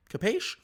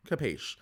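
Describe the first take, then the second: First: Capiche? asked with a sharp high rise; Capiche? rising steeply at the end; questioning capiche. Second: Capiche. settled with a falling close; Capiche. said flat and final; answering capiche. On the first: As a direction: throw Capiche? up like a quick check. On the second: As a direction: answer yourself, Capiche. dropping down. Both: Shown as a demonstration.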